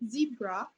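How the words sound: It is said in an American accent.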